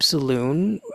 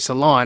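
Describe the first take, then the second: First: The second syllable has an 'oo' vowel. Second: The second syllable has an 'o' vowel. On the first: The speaker calls it wrong. "or sorry" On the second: The speaker calls it right. "I should say"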